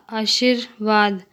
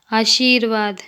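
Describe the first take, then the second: First: Short i in "आशीर्वाद", like "आशिर्वाद"; incorrect pronunciation. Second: Long ee in "आशीर्वाद"; correct pronunciation. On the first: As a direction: slowly say "आशीर्वाद" wrongly with a brief i. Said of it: "अशुद्ध शब्द". ("आशीर्वाद" का अशुद्ध उच्चारण, छोटी इ) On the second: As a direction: say "आशीर्वाद" with the middle vowel held long. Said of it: "शुद्ध शब्द". ("आशीर्वाद" का शुद्ध उच्चारण, लंबी ई) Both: Shown as a demonstration.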